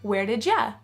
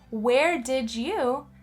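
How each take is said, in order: First: 'You' is weakened to a short 'ya'. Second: Each word is said fully and separately. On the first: The speaker calls it right. "Or you can also say" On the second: The speaker calls it wrong. "Instead of saying"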